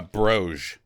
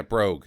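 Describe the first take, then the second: First: "broge" ending in zh like the s in measure; wrong pronunciation. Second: "brogue" ending in a hard g, like rogue; "brogue" closed with a clear hard g; right pronunciation. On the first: Mocking a friend's slip, "broge" ending in zh. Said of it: "Broge is not a word". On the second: Correcting the friend, "brogue" with a hard g. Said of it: "Not broge". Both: Shown as a demonstration.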